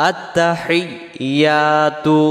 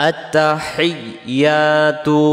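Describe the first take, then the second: Both takes have the same delivery.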